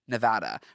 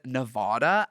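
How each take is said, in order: First: It is said in a plain American way. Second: It is said with a put-on British-sounding accent. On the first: The speaker calls it right. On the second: The speaker calls it wrong.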